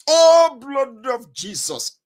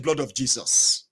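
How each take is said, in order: First: Loud, high prayer cry, then drawn out; fervent cry. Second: Low, slow echoed prayer; daughter's response. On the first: Mother praying before travel, loud fervent cry. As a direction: burst out high and loud, imploring. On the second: Daughter joining mother's prayer, low slow response. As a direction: imitate a child dutifully chanting along, low and slow. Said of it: "Your daughter will be saying". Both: Retold or imitated.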